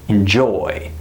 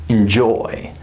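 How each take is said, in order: No difference in how they are said.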